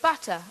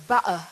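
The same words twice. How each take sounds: First: Said in the usual way. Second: Butter with a glottal stop for the tt; butter said the Cockney way, catch in the throat for tt; Cockney pronunciation. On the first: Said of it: "instead of butter". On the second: Shown as a demonstration. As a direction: drop the T in butter, Cockney style. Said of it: "give you the example of Cockney".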